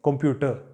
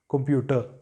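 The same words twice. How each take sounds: No difference in how they are said.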